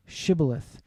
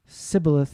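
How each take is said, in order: First: Shibboleth with a clear sh at the start; correct Shibboleth. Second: Sibboleth with an s sound in place of sh; wrong Sibboleth. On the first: Guard demanding the password Shibboleth. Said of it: "Say now". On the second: The enemy failing the password Sibboleth. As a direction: say Sibboleth with a plain s. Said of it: "he could not pronounce it correctly". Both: Shown as a demonstration.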